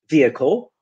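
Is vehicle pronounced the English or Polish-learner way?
English. It is pronounced the English way. The speaker calls it right. "instead of not vehicle, vehicle"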